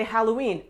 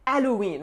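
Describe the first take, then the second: First: Said in the usual way. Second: "Halloween" with the H silent, French style; French accent. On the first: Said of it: "say English words in French". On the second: Shown as a demonstration. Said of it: "Remember that silent H".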